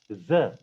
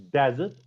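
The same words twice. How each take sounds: First: "desert" stressed on the second syllable, like de-ZERT; weak first syllable in "desert", punch the ZERT. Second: "desert" with the first syllable stressed. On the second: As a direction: punch the DES in "desert", weak second syllable. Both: Shown as a demonstration. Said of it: "desert means something else".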